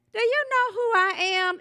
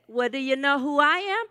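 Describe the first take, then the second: First: High, affronted demand in a joke; put-on indignation, pitched way up; indignant. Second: Rising, slightly lifted question; acted checking question, voice climbing to the end; anxious check. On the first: Elderly lady to an usher in a joke, indignant. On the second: Usher asks the lady back in a joke, anxiously checking.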